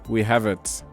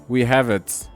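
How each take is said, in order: Both takes have the same delivery.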